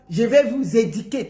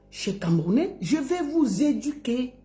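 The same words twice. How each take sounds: First: "éduquer" as "édiquer"; lowered mock quote with an "i" in "éduquer"; wrong pronunciation. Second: Soft, careful "du" in "éduquer"; quiet, neat example of "éduquer"; correct pronunciation. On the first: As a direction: mimic the slip "di" in "éduquer". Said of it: "On dit pas". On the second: Shown as a demonstration. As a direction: model "éduquer" with a rounded "u". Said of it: "On dit".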